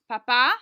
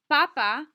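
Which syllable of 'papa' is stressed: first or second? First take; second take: second; first. First: The stress is on the second syllable. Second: The stress is on the first syllable. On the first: It means father. "depending on where you put the accent, it can also mean your father" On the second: It means the Pope. "if you put the accent on the first A"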